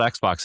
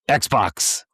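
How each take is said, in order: First: The word is said in a calm, normal voice. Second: The word is shouted loudly with high energy. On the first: "They're not called Xbox anymore" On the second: "because it's all caps now"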